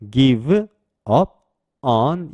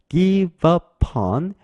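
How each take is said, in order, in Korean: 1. 단어들이 따로 발음돼요. 연결되지 않아요. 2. 단어들이 빠르게 발음돼서 이어져요.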